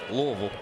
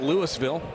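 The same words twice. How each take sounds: First: The name is said gutturally, swallowed in the throat. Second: The name is said clearly, not from the throat. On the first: The speaker calls it right. "you have to get a little guttural with it" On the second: The speaker calls it wrong. "It's not Louisville"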